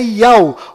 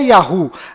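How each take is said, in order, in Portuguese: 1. É pronunciado como uma sílaba, sem h. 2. É pronunciado como duas sílabas, com som de h. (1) "na verdade é Yau" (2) "não é Yahoo"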